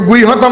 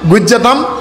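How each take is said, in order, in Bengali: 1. মাঝের ব্যঞ্জনধ্বনিটি h-ধ্বনি। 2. মাঝের ব্যঞ্জনধ্বনিটি j-ধ্বনি। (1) "নহয়" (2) "হৰ উচ্চাৰণ তেতিয়া জ হৈ যায়"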